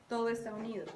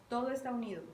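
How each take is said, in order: Both takes have the same delivery.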